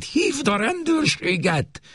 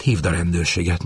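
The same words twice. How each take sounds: First: Much higher, slower urgent order; urgent repeat. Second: Said in the usual way. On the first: Acted. Mother urgently repeats her order to her daughter, higher and slower. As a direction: press the order home. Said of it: "ismételte".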